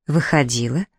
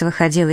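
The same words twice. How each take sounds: First: "Выходила" as a rising question; doubtful echo on "Выходила", ending in a rise. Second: Said in the usual way. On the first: A narrator's reading. Echoes sister's word as question.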